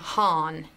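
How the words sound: It is said the American way.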